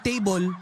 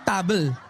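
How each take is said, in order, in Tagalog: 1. Payak ang pagbigkas, walang pekeng aksent. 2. May pekeng aksent na parang British ang pagbigkas. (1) "pag table" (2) "wag table"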